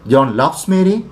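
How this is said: The voice rises at the end, like a question. It asks whether the fact is true.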